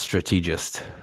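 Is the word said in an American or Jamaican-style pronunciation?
Jamaican. It is said with a Jamaican-style pronunciation. The speaker calls it wrong. "not strategist"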